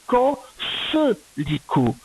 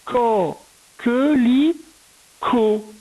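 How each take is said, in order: First: "co, ce lico" with an S sound in "ce"; soft C mispronunciation. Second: "co, que, li, co" with a hard K in "que"; syllable by syllable. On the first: Teacher shows pupil the misspelt word, soft C mispronunciation. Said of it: "ça aurait fait". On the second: Teacher correcting the word for a pupil, syllable by syllable. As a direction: sound out "co, que, li, co" in separate, higher syllables. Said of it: "Donc, co". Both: Shown as a demonstration.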